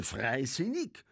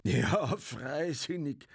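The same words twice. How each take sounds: First: Slow, high, rising question; questioning, stretched repeat; incredulous echo. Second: High, drawn-out, sarcastic echo; derisive, lingering repeat; scornful interruption. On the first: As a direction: draw out FREISINNIG as a scornful question. Indignant echo of disputed word. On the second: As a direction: cut in and stretch the word mockingly. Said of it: "fiel Bartlett dem Sepp in die Rede". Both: A narrator's reading.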